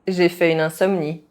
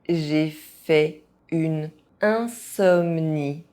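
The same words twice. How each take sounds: First: It is said fast, with some sounds dropped. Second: It is said at an ordinary speaking pace. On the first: This is how native speakers say it. "fast, as a native speaker would do" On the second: This is the pace learners should use. "at a normal pace"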